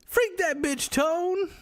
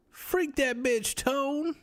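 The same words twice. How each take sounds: First: Very high, drawn-out squeal of a line; high, slow, squeaky mocking. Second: Very high put-on voice, dragged slowly; high, slow, squeaky mocking. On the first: Streamer mocking a chatter, high and slow. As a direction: squeak it out slowly like a cartoon. Mock response to chat. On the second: Streamer answering Tyrone, high and slow. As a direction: stretch it out in a silly high squeak. Repeats catchphrase to chatter.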